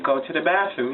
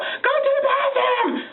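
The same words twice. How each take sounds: First: It is said calmly in a regular voice. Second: It is yelled loudly at the child.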